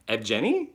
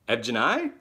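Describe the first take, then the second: First: "Evgeny" ending in "nee", questioning rise; unsure pronunciation attempt. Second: "Evgeny" ending in "nigh", questioning rise; alternative pronunciation attempt. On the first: Host attempting a viewer's name, "Evgeny" with a "nee" ending, unsure. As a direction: try "Evgeny" as ev-SHEN-ee, unsure. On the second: Host retrying a viewer's name, "Evgeny" with a "nigh" ending, unsure. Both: Shown as a demonstration. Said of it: "Can I just spell it?".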